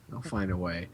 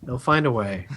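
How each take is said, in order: First: They'll find a way dropped low and soft; much softer echo. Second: Said in the usual way. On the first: Shown as a demonstration. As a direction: repeat it under your breath.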